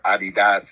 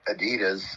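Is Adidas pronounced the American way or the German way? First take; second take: German; American. First: It is said with a German pronunciation. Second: It is said with a plain American pronunciation.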